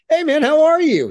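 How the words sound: It is said in a loose, casual way.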